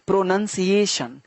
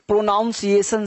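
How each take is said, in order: First: The second syllable sounds like nun. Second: The second syllable sounds like noun. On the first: The speaker calls it right. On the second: The speaker calls it wrong.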